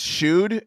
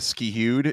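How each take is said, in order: First: The name begins with an sh sound. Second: The name begins with an sk sound. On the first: The speaker calls it right. "but it's Shood" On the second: The speaker calls it wrong. "they don't know how to pronounce it. They go Skihood"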